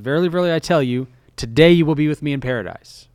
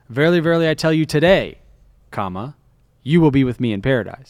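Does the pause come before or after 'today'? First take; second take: before; after. First: The pause comes before the word today. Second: The pause comes after the word today.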